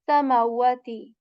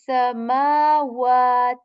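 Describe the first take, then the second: First: The vowels after m and w are short. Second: The vowels after m and w are long. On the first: The speaker calls it wrong. "I'm not saying samawati" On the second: The speaker calls it right. "stretching the sound of ma and wa here"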